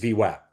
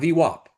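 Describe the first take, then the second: First: The second part has no 'o' vowel. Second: The second part has an 'o' vowel. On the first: The speaker calls it right. "It's V WAP" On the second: The speaker calls it wrong. "not V WAP. There is no O in V WAP"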